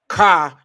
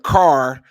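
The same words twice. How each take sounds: First: It is said with a Chicago-style accent. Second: It is said with a neutral accent. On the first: This is how the other city's people say it. "They gonna say car" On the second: This is the usual way to say it. "instead of car"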